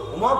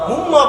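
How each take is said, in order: First: The m sound is short, single. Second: The m sound is held long, doubled. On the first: The speaker calls it wrong. "হুমা বলবো না" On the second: The speaker calls it right. "অতএব আমরা হুম্মা বলবো"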